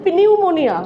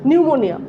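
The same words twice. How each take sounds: First: The word begins with a spoken p sound. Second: The word begins with an n sound. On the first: The speaker calls it wrong. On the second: The speaker calls it right.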